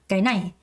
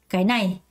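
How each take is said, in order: Both takes have the same delivery.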